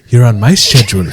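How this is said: Schedule is said the British way, with sh.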